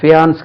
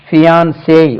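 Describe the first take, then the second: First: The word ends with an 's' sound. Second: The word ends with an open 'ay' vowel. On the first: The speaker calls it wrong. "ஃபியான்ஸ் கிடையாது" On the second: The speaker calls it right. "ஃபியான்சே உச்சரிப்பாங்க"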